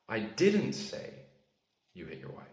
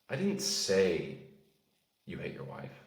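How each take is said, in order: First: The word 'didn't' carries the stress. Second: The word 'say' carries the stress. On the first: It was never said. "That implies that you didn't say it" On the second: It was implied rather than said. "That means you maybe inferred it"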